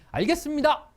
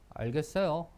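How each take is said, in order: First: It is said sincerely and wholeheartedly. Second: It is said carelessly, without sincerity.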